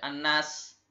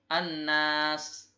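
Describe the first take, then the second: First: The vowel after the n is short. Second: The vowel after the n is held long. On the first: The speaker calls it wrong. "tidak dibaca annas" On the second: The speaker calls it right. "tapi annas"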